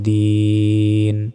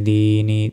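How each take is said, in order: First: The word ends on the n consonant. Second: The word ends with a short i vowel. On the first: "থামলে" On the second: "নুন জের নি"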